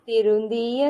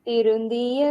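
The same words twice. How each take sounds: Both takes have the same delivery.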